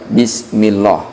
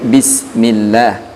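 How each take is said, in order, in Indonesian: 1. Bunyi L-nya berat dan tebal. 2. Bunyi L-nya ringan dan tipis. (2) "dibaca tarqiq atau dibaca tipis"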